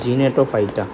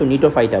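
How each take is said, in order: First: The word begins with a hard g sound. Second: The word begins with an n sound. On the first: The speaker calls it wrong. "সামনে জি আছে বললে আমি উচ্চারণ করলাম জিনেটোফাইটা" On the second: The speaker calls it right. "আসলে এটা উচ্চারণ কিন্তু নিটোফাইটা"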